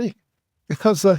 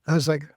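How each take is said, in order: First: Slow, drawn-out through a laugh. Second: Said in the usual way. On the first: Retold or imitated. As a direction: stretch it out while laughing. Laughing retelling the reaction.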